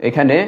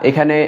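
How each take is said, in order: The two takes are said the same way.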